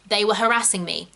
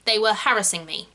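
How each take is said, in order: First: Said in the usual way. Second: "harassing" stressed on the first syllable, HARRIS-ing; RP pronunciation. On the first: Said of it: "Same with the word harassed". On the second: Shown as a demonstration. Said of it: "In R P".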